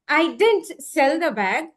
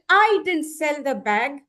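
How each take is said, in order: First: The stress is on "sell". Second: The stress is on "I".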